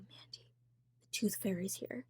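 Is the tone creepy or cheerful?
creepy. It is said in a creepy, ominous tone.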